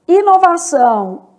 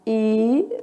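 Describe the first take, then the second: First: Said in the usual way. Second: Inovação broken into separate syllables; split into syllables. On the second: Shown as a demonstration. Teacher to student, splitting inovação syllable by syllable. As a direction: tap out inovação beat by beat. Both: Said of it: "word said whole then split".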